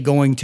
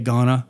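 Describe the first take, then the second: First: Both words are said in full. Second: The words are reduced into one short word. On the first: "you don't say going to" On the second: "you say gonna"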